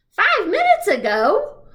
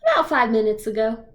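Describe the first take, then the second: First: High, loud, slow astonished echo; surprised. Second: Said in the usual way. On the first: Acted. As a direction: repeat "Five minutes ago?" in shock. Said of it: "He looks really surprised".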